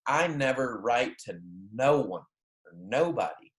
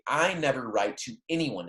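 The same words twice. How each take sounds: First: Literal double negative. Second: Said in the usual way. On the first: Shown as a demonstration. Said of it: "if you're looking at it in Spanish". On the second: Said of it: "In English, that's how we would translate".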